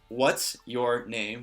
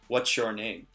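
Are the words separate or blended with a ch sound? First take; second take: separate; blended. First: Each word is said separately and clearly. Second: The words run together with a ch sound. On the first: "the individual words" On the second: "When I'm saying it quickly, ... It kind of has a C H sound"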